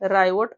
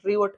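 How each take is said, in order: First: The first vowel is an 'eye' glide. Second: The first vowel is a short 'ee' sound. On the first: The speaker calls it right. "आयचा डिप्तांग राय, रायवट अशा पद्धतीने त्याचा उच्चार होईल" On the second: The speaker calls it wrong. "बरेच जण याला वेगवेगळं वाचतील, रिओट वाचतील"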